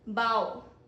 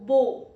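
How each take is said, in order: First: The vowel does not rhyme with go. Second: The vowel rhymes with go. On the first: To bend forward as a sign of respect. "Pronunciation one is bow" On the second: A weapon for shooting arrows or a tied ribbon loop. "It rhymes as go"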